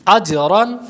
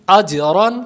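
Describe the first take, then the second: No difference in how they are said.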